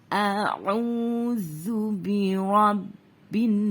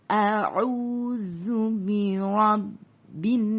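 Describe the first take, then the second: The two takes are said the same way.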